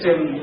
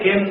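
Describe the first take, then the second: First: The word begins with a ch sound. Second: The word begins with a k sound. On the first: This is how people from Mehsana say it. "આપણે જયારે ક બોલીએ તો ત્યારે એ લોકો ચ બોલે" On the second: This is how we say it. "આપણે કહીએ કે કેમ"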